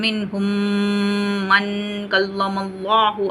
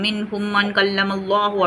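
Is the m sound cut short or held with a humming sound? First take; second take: humming; cut short. First: The m is held with a nasal hum. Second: The m is cut short with no hum. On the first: The speaker calls it right. "நான் கொஞ்சம் vibration sound குடுக்கணும்" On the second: The speaker calls it wrong. "அந்த vibration sound வந்து குடுக்க மாட்டோம். டப்புன்னு ஓதிட்டு போயிருவோம்"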